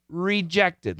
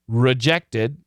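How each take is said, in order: First: The first syllable has a full, clear 'ree' vowel. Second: The first syllable has a weak, reduced vowel. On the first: The word is being emphasized. "She emphasized the word, so she said rejected" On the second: This is the ordinary everyday way to say it. "Typically, we'll say rejected"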